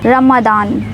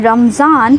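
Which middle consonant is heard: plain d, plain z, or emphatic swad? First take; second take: plain d; plain z. First: The middle consonant is a plain d sound. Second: The middle consonant is a plain z sound. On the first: "ना रमदान" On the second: "काफी लोग कहते हैं रमजान"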